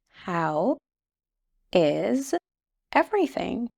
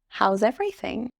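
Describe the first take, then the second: First: The phrase is said slowly and fully. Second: The phrase is said quickly and run together.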